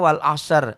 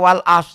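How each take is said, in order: First: The final r sound is pronounced. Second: The final r sound is dropped. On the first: The speaker calls it right. "Harusnya wal asr. Ada sod, ada ro" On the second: The speaker calls it wrong. "Banyak orang yang baca wal as. Salah"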